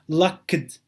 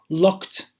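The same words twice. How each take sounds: First: The ending is an extra 'id' syllable. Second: The ending is a short 't' sound. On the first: The speaker calls it wrong. "This is not locked" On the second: The speaker calls it right. "it is locked"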